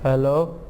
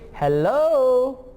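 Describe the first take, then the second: First: The greeting sounds flat and not cheerful. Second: The greeting sounds bright and cheerful. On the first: "because of my intonation, the meaning it is going to give, that's going to be different" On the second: "he's saying hello so cheerfully"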